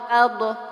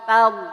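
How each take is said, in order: First: The final consonant is released with a bounce. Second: The final consonant is held without any release. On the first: The speaker calls it wrong. "Kalau dilepas nantinya akan muncul dha-nya mantul" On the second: The speaker calls it right. "jangan dilepas"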